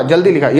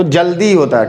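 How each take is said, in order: First: जल्दी with a quick, short final ई; short final vowel. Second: जल्दी with a long, held दी; long final vowel. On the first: Teacher reads the wrong spelling, short vowel. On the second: Teacher gives students the right word, long vowel. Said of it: "ज़्यादा देर तक का sound". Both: Shown as a demonstration.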